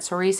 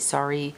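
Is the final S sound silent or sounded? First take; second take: sounded; silent. First: The final S sound is pronounced. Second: The final S sound is left silent.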